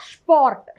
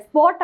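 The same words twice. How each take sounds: First: "സ്പോർട്ട്" as shport, sh before p. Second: "സ്പോട്ട്" as sport, s before p; plain S sound. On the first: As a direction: begin "സ്പോർട്ട്" with a hushing sh. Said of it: "ഷ്പ് എന്നാണ് പറയുക". ("സ്പോർട്ട്" ഷ് ശബ്ദത്തിൽ) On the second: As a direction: keep the English s in "സ്പോട്ട്". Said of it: "സ്പോട്ട് അല്ല". ("സ്പോട്ട്" സ് ഉച്ചരിച്ച്) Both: Shown as a demonstration.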